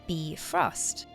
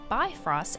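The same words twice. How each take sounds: First: The first syllable sounds like 'beef'. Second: The first syllable does not sound like 'beef'. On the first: It follows the Norse mythology name. "it kind of sounds like beef roast" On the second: It follows the in-game spelling without an umlaut. "It is missing an umlaut"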